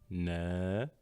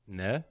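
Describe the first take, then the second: First: The vowel after the n is long. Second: The vowel after the n is short. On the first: "Avec ses voyelles longues" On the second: "Voici la lettre Noun avec ses voyelles courtes"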